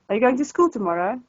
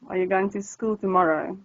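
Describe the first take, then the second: First: The voice rises at the end of the question. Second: The voice falls at the end of the question. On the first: This is how English speakers ask it. "and you go like" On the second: This is how Afrikaans speakers ask it. "we'd go down at the end of sentences"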